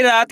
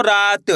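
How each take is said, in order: First: Said in the usual way. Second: "रात" with a long, held aa before the final t; drawn-out vowel. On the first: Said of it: "रा का उच्चारण खींच को रा". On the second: Shown as a demonstration. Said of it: "उच्चारण खींच को रा".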